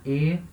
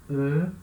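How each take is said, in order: First: E said as a closed French é; closed e sound. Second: E said as a rounded French eu, lips forward; rounded eu sound. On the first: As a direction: say E as a closed é, lips spread. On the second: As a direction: say E as the rounded eu of sœur. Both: Shown as a demonstration. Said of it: "vai pronunciar E".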